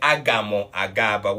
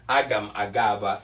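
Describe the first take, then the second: First: The first word ends with an added mo syllable. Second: The first word ends with a bare m sound. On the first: The speaker calls it wrong. "We don't say Agamo Agaba" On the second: The speaker calls it right. "Mgagaba is the more correct thing"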